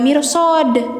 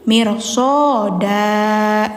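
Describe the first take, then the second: First: The word ends on a silent final consonant. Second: The word ends with a vowel held two beats. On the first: The speaker calls it wrong. "jadi enggak mirsod" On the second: The speaker calls it right. "tapi mirsoda gitu ... Dua harokat aja panjangnya"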